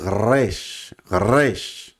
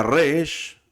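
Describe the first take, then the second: First: Resh said twice with a throaty back-of-the-throat r; guttural resh, repeated. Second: Resh with a throaty guttural r from the back of the throat. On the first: Teacher repeats the letter name for students, throaty. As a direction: roll resh from the throat, slowly. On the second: Teacher demonstrates the guttural Hebrew letter, throaty r. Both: Shown as a demonstration. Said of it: "que es una letra muy gutural".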